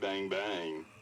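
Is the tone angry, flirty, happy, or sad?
flirty. It is said in a flirty tone.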